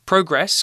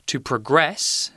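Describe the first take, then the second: First: PROGRESS stressed on the first syllable, PROH-gress; noun stress. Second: PROGRESS stressed on the second syllable, pruh-GRESS; weak first syllable, punch "gress" in progress; verb stress. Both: Shown as a demonstration. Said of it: "the stress is different there".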